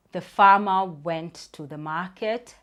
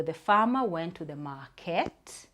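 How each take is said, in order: First: "market" drawn out slowly before the comma; dragged comma pause. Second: "market" falls and stops, a complete stop; full stop ending. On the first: Teacher showing a child how a comma sounds, dragging the last word. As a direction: stretch "market" to show the comma. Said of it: "reinforce dragging the last word". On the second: Teacher reading to a child, stopping on the final word. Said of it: "so I'll go". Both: Shown as a demonstration.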